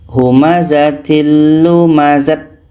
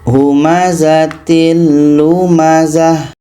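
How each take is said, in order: First: The final word ends with a t sound. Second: The final word ends with an h sound. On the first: The speaker calls it wrong. "tidak boleh dibaca humazatil lumazat. Ah, itu tidak boleh" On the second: The speaker calls it right. "menjadi huruf ha yang berbaris sukun atau mati"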